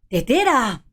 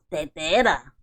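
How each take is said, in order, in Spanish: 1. La palabra suena feliz. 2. La palabra suena asqueada. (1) "con felicidad"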